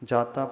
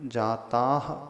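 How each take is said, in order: First: The word ends on a plain vowel. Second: The word ends with a soft breathy h. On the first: The speaker calls it wrong. "जाता पढ़ के आगे बढ़ जाते" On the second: The speaker calls it right. "जाताह पढ़ना है"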